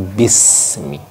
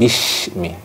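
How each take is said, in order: First: The s sounds thin and hissing. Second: The s sounds heavy, close to sh. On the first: The speaker calls it right. "tapi bismi" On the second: The speaker calls it wrong. "bukan bishmi"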